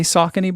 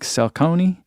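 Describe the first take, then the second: First: It is said with a plain American pronunciation. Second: It is said with an Italian-style pronunciation. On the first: The speaker calls it right. "I've never heard anyone not say Saucony" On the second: The speaker calls it wrong. "like as an Italian, like Saucony?"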